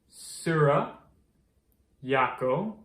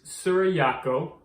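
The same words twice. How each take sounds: First: The phrase is said slowly and carefully. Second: The phrase is said at normal speed.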